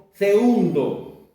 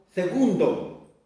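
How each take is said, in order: First: Segundo slowly with no g: "seundo"; Mapuche-style pronunciation. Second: Said in the usual way. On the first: Shown as a demonstration. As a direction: say "segundo" as se-UN-do, drawn out. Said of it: "decimos segundo". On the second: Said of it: "Tampoco decimos segundo".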